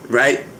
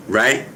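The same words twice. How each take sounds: The two takes are said the same way.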